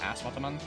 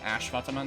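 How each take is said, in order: First: The first word ends with an s sound. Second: The first word ends with an sh sound. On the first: The speaker calls it wrong. "not an at, like, S" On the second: The speaker calls it right. "the S, I believe, is supposed to be pronounced the sh sound"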